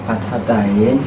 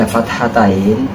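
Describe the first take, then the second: The two takes are said the same way.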